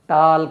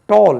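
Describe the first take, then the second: First: The vowel is an open, unrounded 'aa' sound. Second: The vowel is a rounded 'aw' sound. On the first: The speaker calls it wrong. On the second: The speaker calls it right.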